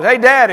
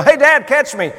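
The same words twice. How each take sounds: First: Put-on high, loud call of a kid; kid hollering. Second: Son's high, loud call from the cliff; child yelling. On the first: Kid hollers at dad from the rocks, loud call. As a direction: holler up to get dad's attention. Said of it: "your kid hollers". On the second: Retold or imitated. Son calls down to dad from cliffs, yelling. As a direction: shout up to dad to catch you. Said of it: "I heard a voice above me yell".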